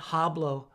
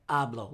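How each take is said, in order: First: Hablo with the H pronounced, like English h; the mistake: hablo with a spoken H; wrong, H sounded. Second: Hablo said as "ablo", no H sound at all; silent H. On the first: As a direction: say "hablo" with a breathy English h at the start. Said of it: "The H in Spanish is silent. So it's not". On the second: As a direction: drop the H in "hablo" and start on the vowel. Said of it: "The H in Spanish is silent". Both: Shown as a demonstration.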